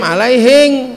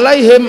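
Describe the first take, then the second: First: The word ends with an ng sound. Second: The word ends with an m sound.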